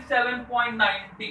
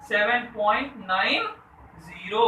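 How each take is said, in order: First: "ninety" run together as one whole number; wrong decimal reading. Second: "nine", pause, "zero" as separate digits; loud "nine" rising, then a distinct "zero"; correct decimal reading. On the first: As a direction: read the digits after the point jointly as "ninety". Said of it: "ऐसे नहीं पढ़ेंगे". ("नाइंटी" को एक पूरी संख्या की तरह पढ़ते हुए) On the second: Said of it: "क्या पढ़ेंगे?". ("नाइन" और "ज़ीरो" अलग-अलग, बीच में रुककर) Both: Shown as a demonstration.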